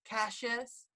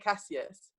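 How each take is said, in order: First: The name is said the American way. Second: The name is said the English way.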